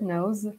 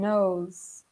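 First: The final sound is a buzzing z sound. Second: The final sound has no buzzing z sound.

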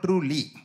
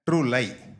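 First: The second syllable sounds like 'lee'. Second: The second syllable sounds like 'lie'. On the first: The speaker calls it right. "I think it should be pronounced truly" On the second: The speaker calls it wrong. "Yena vandu enga teacher eppadi ma pronounce pannuvaanga?"

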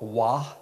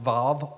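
First: The word begins with a W sound. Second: The word begins with a V sound. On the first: "can be pronounced Vav or Wah" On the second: "can be pronounced Vav or Wah"

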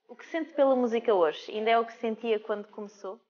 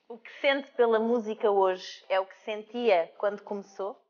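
First: The question is asked fast. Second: The question is asked slowly.

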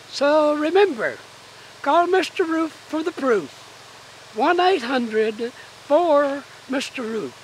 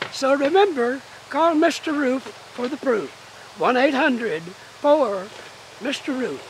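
First: It is said at a slower pace. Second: It is said at a quicker pace.

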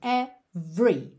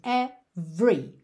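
First: The middle vowel is dropped, giving two syllables. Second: The same.

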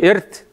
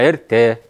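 First: The word ends on a consonant sound. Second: The word ends on a vowel sound. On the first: The speaker calls it wrong. "Не «эрт»" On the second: The speaker calls it right. "«э» должно быть в конце"

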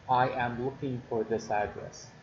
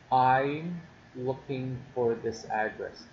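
First: The opening is the full form I am. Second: The opening is the contracted form I'm. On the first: "I am" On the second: "this is an abbreviation for I am"

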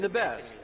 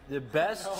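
First: It is said at a normal speaking pace. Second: It is said slowly and drawn out.

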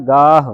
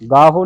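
First: The word ends without an added vowel. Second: The word ends with an added vowel. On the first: The speaker calls it right. "ਹਾਹਾ ਮੁਕਤ ਹੈ ਗਾਹ" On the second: The speaker calls it wrong. "ਗਾਹੋ ਨਹੀਂ ਕਹਿਣਾ"

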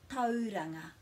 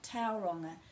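First: The first vowel is a Māori 'au' blend. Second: The first vowel glides like English 'ow'. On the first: The speaker calls it right. "It's au" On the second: The speaker calls it wrong. "it's not Tauranga"

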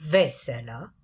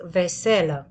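First: The stress is on the first syllable. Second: The stress is on the second syllable. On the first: It means happy or cheerful. "cuvântul veselă este accentuat pe prima silabă" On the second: It means dishes used at the table. "cuvântul veselă este accentuat pe a doua silabă"

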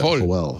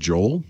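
First: The name is said the Spanish way. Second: The name is said the English way.

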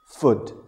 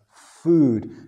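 First: The vowel is short and clipped. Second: The vowel is long and drawn out. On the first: The speaker calls it wrong. "nunca es food, okay? No es un sonido corto" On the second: The speaker calls it right. "en este caso es un sonido largo, es food"

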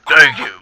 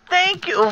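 First: The voice is deep and macho. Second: The voice is high and whiny. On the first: The speaker calls it right. "It would be like more macho masculine" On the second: The speaker calls it wrong. "the god of whiny voices"

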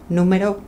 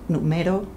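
First: The stress is on the first syllable. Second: The stress is on the second syllable.

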